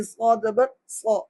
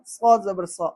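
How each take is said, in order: First: "صا" as a full, rounded so; correct heavy saad. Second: "صا" thinned to plain sa; wrong, undistinguished saad. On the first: Teacher demonstrating the sound of saad, heavy rounded "صا". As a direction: thicken "صا" into heavy so, mouth rounded. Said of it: "صاد کی آواز نکلنی چاہیے". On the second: Teacher mimicking learners' mistake, "صا" as plain thin sa. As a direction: say "صا" without heaviness, just like seen. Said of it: "یہ فرق کرنے پہ لوگ قادر نہیں". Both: Shown as a demonstration.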